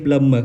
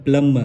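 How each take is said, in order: No difference in how they are said.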